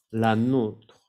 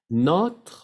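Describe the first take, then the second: First: "la nôtre" falling, with long closed O. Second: "notre" short, higher and rising, open O. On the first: Teacher contrasts two words, "la nôtre" with closed O. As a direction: round and lengthen the O in "la nôtre". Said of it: "con el acento circunflejo". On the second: Teacher contrasts two words for learners, "notre" with open O. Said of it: "la diferencia entre notre". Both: Shown as a demonstration.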